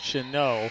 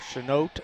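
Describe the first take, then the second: First: The final T sound is silent. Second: The final T sound is pronounced. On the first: The speaker calls it right. "I think it's Chanot. I think the T is silent" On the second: The speaker calls it wrong. "It's not Chanot"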